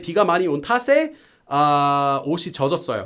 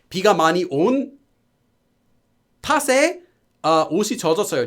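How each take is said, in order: First: The pause comes right after the grammar ending. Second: The pause breaks the phrase in the middle. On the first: The speaker calls it right. "Like that. That's fine" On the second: The speaker calls it wrong. "But don't do it in the middle. Don't say like that"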